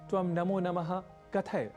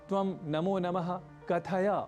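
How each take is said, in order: First: The last word's final vowel is dropped. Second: The last word's final vowel is clearly pronounced. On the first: The speaker calls it wrong. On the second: The speaker calls it right.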